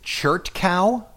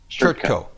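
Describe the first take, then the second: First: The last syllable rhymes with 'how'. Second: The last syllable rhymes with 'go'. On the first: The speaker calls it wrong. "is it Chert Cow?" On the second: The speaker calls it right. "the last part I usually pronounce like K-O, Co"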